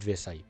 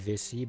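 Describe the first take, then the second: First: The name ends in an 'eye' sound. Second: The name ends in an 'ee' sound. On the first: The speaker calls it right. "I'm pronouncing it Vesai" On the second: The speaker calls it wrong. "the word is a French word for bladder"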